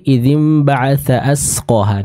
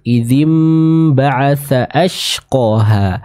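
First: The last word has a plain s sound. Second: The last word has a breathy sh sound. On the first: The speaker calls it wrong. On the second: The speaker calls it right.

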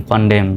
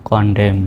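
No difference in how they are said.

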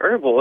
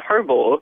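First: The word begins with a vowel, h silent. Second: The word begins with an audible h sound. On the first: "we don't pronounce the H there either" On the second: "Why wouldn't you pronounce the H?"

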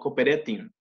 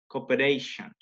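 First: The ending is said with a t sound. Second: The ending is said with a sh sound. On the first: The speaker calls it wrong. "No cooperation" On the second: The speaker calls it right. "se usa una sh al final de tion"

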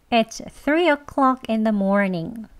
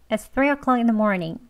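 First: The sentence is spoken slowly and carefully. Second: The sentence is spoken quickly with words run together. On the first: "천천히 두 번 합니다" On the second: "이제 조금 빨리 해볼게요"

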